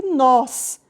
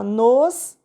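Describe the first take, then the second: First: "nós" with an open o; "nós" drawn out with a wide open o; accented "nós". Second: "nos" with a closed o; "nos" drawn out with a closed vowel; unstressed "nos", no accent. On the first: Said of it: "com acento". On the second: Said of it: "sem acento". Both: Shown as a demonstration.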